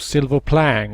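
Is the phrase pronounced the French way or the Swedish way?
Swedish. The phrase is pronounced with a Swedish-style twist.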